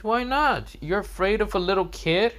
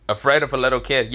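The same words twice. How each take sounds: First: Put-on high-pitched, taunting kid; Boruto. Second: Quick, incredulous echo in a natural pitch; Konohamaru. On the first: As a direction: goad him in a high kid's voice. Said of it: "Boruto says". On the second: Acted. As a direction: throw the question back fast, scoffing. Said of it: "Konohamaru says".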